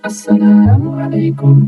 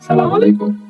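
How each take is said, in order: First: The greeting starts with 'as' and says 'salamu' fully. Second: The greeting starts directly with 'salam', no 'as'. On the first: The speaker calls it right. "অথচ না" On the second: The speaker calls it wrong. "সালাম উচ্চারণ ঠিক করে করতে পারে না।"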